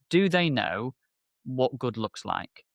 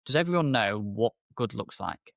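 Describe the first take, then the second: First: What good looks like, each word slow and weighted, stress on what; a slowed, pointed rhetorical question; slow emphatic question. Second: Said in the usual way. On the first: Shown as a demonstration. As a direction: lean hard into what, drag the line out slowly.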